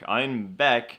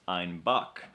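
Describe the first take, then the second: First: Einbeck, second syllable "beck" with an open e; standard pronunciation. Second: Einbach, second syllable sounding like "bock"; dialect pronunciation. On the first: Host shows listeners the town's name, Einbeck said clearly with "beck". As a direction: say "Einbeck" distinctly, ending like "deck". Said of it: "their pronunciation of Einbeck". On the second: Host shows how locals say it, slow Einbach ending in "bock". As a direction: say "Einbach" slowly, ending "bock" instead of "beck". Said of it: "with their dialect, is pronounced". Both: Shown as a demonstration.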